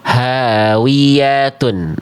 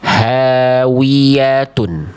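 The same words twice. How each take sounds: First: The w is said without pushing the lips forward. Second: The w is said with lips pushed forward and rounded. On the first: The speaker calls it wrong. "jangan kita baca hawiyatun" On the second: The speaker calls it right. "tapi sempurnakan wawunya"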